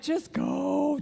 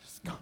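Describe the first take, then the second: First: It is said in a steady, normal voice. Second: It is said gasping and wheezing for breath.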